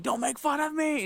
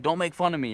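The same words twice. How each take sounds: First: High-pitched mock shout; retold outburst, pitched way up; imitated angry yell. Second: Said in the usual way. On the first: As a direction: yell it like the offended stranger. Acting the man's angry shout.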